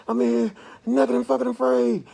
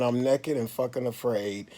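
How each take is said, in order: First: High, loud yell of naked and fucking afraid; panicked hollering. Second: Said in the usual way. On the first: Retold or imitated. Man retelling his panic attack, hollering high and loud. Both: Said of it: "I was literally in the room hollering".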